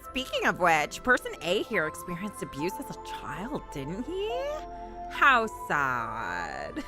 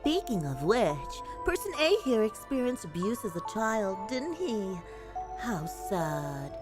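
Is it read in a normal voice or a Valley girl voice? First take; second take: Valley girl; normal. First: It is read in a Valley girl voice. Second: It is read in a normal voice.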